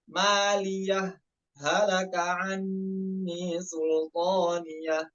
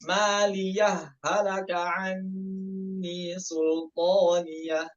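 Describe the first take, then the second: First: A brief stop comes after maliyah, h kept distinct. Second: Maliyah runs into halaka, the h sounds merged. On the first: "yaitu as-saktah sama izhar" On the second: "Contohnya idgham bagaimana?"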